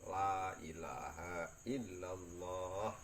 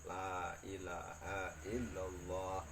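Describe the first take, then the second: No difference in how they are said.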